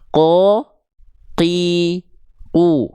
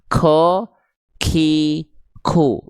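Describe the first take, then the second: First: No breath follows the k sound. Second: A puff of breath follows the k sound. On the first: The speaker calls it right. "tanpa adanya mengalir nafas sedikit pun" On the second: The speaker calls it wrong. "jangan sampai teman-teman baca ada ada nafasnya keluar"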